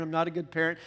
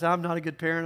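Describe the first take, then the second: First: A hint of a guilty mom, leaning on "not"; self-blaming parent. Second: Lightly voiced worried parent, weight on "I'm"; a hint of a guilty mom, leaning on "I'm"; self-blaming parent. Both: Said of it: "those you guys who beat yourself up".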